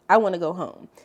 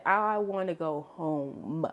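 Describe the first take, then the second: First: Louder burst of happy relief; joyful louder repeat. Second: Drawn-out, savoring each word; slow joyful relief. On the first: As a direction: say it again, louder with joy. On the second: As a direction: stretch it out like pure relief. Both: Retold or imitated. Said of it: "if I'd never felt any joy before in my life".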